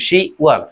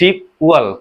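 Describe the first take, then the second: First: The p sound is dropped before 'wol'. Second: A p sound is heard before 'wol'.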